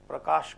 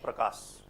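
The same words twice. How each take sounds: First: The name ends with an sh sound. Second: The name ends with an s sound. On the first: "Sa sha" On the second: "Sha is often not pronounced. We say sa"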